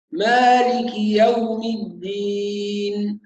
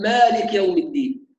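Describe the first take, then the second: First: مالك يوم الدين slow, vowels complete but not stretched; correct recitation. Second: مالك with the kaf stopped dead, no vowel after it; silent kaf. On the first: Teacher modelling correct recitation after the errors. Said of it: "هكذا". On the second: Teacher imitating a common mistake, kaf without vowel. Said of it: "إسكان الكاف". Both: Shown as a demonstration.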